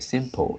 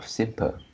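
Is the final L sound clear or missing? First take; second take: clear; missing. First: The final L sound is clearly pronounced. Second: The final L sound is left out. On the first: The speaker calls it right. "there is a L here, so it's like simple" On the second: The speaker calls it wrong. "instead of simple"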